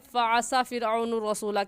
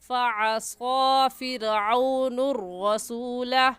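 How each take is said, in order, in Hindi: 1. इसे जल्दी बोला जाता है, s के बाद छोटे स्वर के साथ। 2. s के बाद का स्वर लंबा खींचा जाता है। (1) "जल्दी में ... कहना गलत है" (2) "खड़ी ज़बर को एक अलिफ के बराबर खींचेंगे"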